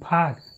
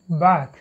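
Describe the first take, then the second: First: The b is released with a puff of air. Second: The b is released without a puff of air. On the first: The speaker calls it wrong. "You cannot talk bag. That's wrong" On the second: The speaker calls it right. "Bo is never aspirated"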